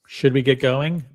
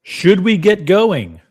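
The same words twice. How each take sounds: First: Said in the usual way. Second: High, loud and drawn out, rallying the chat; hyped up call. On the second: Real, not acted. Streamer rallying his viewers, high and loud, slow hype call. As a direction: stretch it out like a hype man.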